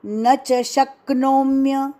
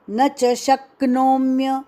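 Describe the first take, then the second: No difference in how they are said.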